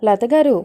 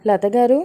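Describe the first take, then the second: First: Calling again, louder. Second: Calling a name at the door; first call, lightly raised. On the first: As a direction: raise the voice on the repeated call. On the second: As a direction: call for Latha at the door, a little louder. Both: A narrator's reading. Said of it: "అని పిలుస్తూ ఉంటుంది".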